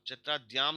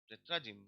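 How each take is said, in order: First: The unstressed vowels are said full and clear. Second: The unstressed vowels are reduced and weak. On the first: The speaker calls it wrong. "अब चैत्राद्याम नहीं पढ़ेंगे" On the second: The speaker calls it right. "Unstressed है, स्ट्रेस यहाँ पे है"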